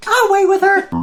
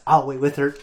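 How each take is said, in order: First: Very high, loud imitated shout; retold dad yell. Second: Said in the usual way. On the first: Dad insisting he'll wait with her, imitated yell. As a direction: blow up as a yelling dad. Dad's line repeated as a yell.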